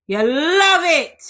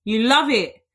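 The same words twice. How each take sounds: First: Teasing. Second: Said in the usual way. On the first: Real, not acted. Teasing listeners about marriage talk.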